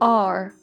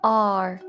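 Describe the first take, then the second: Both takes have the same delivery.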